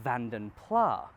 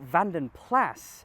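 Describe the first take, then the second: First: The name is given a French-sounding pronunciation. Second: The name is given a Flemish-sounding pronunciation. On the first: It sounds posher. The speaker calls it wrong. "make them sound posher, therefore more French" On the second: It is closer to the original. The speaker calls it right. "it's a Flemish name, so Vanden Plas is at least more authentic"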